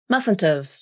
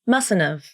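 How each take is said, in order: First: The second T is pronounced as a clear T. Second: The second T blends away into the N sound. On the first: "you pronounce the second T like a true T" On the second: "this word follow the rules of the nasal flap"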